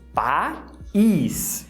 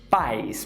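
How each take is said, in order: First: The two vowels are split into two syllables. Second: The two vowels glide together in one syllable. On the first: It means country. "eles são separados" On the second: It means parents. "você tem duas vogais dividindo a mesma sílaba, então elas saem juntas"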